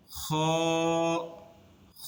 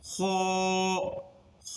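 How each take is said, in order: First: খ with rasping throat friction, lips unrounded; normal-mouth kha. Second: খ with lips fully rounded, toward "khoo"; over-rounded kha. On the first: Teacher correcting the mistake, খ with a relaxed mouth. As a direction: keep lips neutral and scrape খ at the throat. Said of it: "মুখ থাকবে একদম normal অবস্থা।". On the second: Teacher imitating a common mistake, খ with rounded lips. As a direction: round the mouth right up on the vowel of খ. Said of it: "মুখটাকে একেবারে গোল বানায় ফেলে". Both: Shown as a demonstration.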